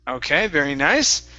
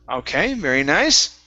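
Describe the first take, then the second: Both takes have the same delivery.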